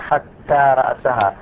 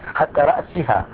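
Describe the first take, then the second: First: The last word has an a vowel before -ha. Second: The last word has an i vowel before -ha. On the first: The word is in the accusative case. "فإذا نصبت علامة تنصبه" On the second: The word is in the genitive case after hatta. "بالجر"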